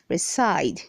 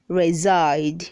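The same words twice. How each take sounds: First: The middle consonant is an S sound. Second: The middle consonant is a Z sound. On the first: The speaker calls it wrong. "don't say" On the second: The speaker calls it right. "The letter S is making the sound Z"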